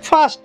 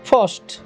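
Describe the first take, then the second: First: The vowel is a long open 'aa' sound. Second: The vowel is a short 'o'-like sound. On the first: The speaker calls it wrong. "ଫାଷ୍ଟ ଫାଷ୍ଟ ଆ ଆ ଉଚ୍ଚାରଣ କରିବେ, ତାହା ସମ୍ପୂର୍ଣ୍ଣ ଭୁଲ ଉଚ୍ଚାରଣ" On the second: The speaker calls it right. "ଆଇ ଅକ୍ଷରଟି ଅ ରୂପରେ ମଧ୍ୟ ଉଚ୍ଚାରଣ ହୁଏ"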